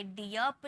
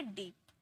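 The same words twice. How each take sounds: First: डीप mispronounced "dee-yap", in two syllables; wrong vowel glide. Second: Said in the usual way. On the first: Shown as a demonstration. Teacher warns students off a misreading, डीप said as "diyap". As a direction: add a "ya" glide before the p in डीप. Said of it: "डीप नहीं". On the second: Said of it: "इसे डीप".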